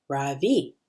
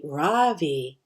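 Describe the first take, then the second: First: "Ravi" slow, soft Ra and a strong V, falling; correct name pronunciation. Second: "Ravi" stressed on the first syllable, American style; American mispronunciation. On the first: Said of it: "It's pronounced Ravi, with a soft Ra and a strong V". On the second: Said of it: "with the stress on the first syllable". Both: Shown as a demonstration.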